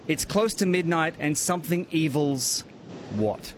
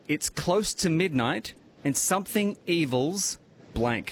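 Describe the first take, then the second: First: It is read at normal speed. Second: It is read more slowly.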